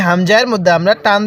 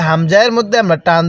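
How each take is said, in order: Both takes have the same delivery.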